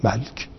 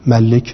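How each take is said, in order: First: "ملک" said malk, the lam without a vowel, very soft; shortened malk. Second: "ملک" said malik, with a kasra on the lam; full form malik. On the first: Teacher shows the short form of "ملک" as malk, softly. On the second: Teacher gives the full form of "ملک" as malik. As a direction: sound out "ملک" as ma-lik, with the vowel kept. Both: Shown as a demonstration.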